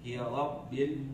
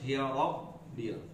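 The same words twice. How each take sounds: First: The r is pronounced heavy and thick. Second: The same.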